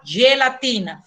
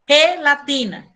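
First: The g sounds like a Portuguese g. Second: The g sounds like a Spanish j. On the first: The speaker calls it wrong. "Você não fala gelatina" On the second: The speaker calls it right. "fala gelatina"

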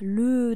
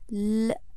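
First: The word is said with its full vowel. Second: Only the consonant l is said, no vowel. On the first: The speaker calls it wrong. "le ではなく" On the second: The speaker calls it right. "l だけ読みます"

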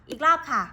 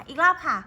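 Both takes have the same delivery.

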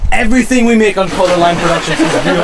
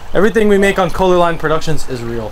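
First: It is said at a louder volume. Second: It is said at a normal volume.

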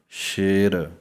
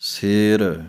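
First: The word begins with an sh sound. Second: The word begins with a plain s sound.

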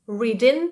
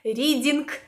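First: The ending is a nasal ng with no g. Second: The ending has an audible hard g sound. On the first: The speaker calls it right. "Але ні, ми кажемо" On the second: The speaker calls it wrong. "Багато хто каже"

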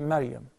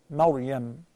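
First: The r is pronounced light and thin. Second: The r is pronounced heavy and full. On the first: The speaker calls it wrong. "They take it easy and they say Maryam" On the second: The speaker calls it right. "Then the ra is fat"

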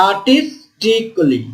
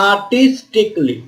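Both takes have the same delivery.

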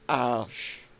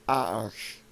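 First: The middle consonant is a soft sh sound. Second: The middle consonant is a soft sh sound.

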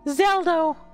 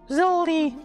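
First: The name is said as Zelda. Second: The name is said as Zoldy. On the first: The speaker calls it right. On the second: The speaker calls it wrong.

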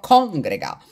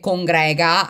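First: The stress is on the first syllable. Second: The stress is on the second syllable. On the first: "e quindi dico congrega" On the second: "anche se si pronuncia così, mi sa di cadrega"

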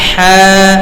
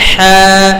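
Both takes have the same delivery.

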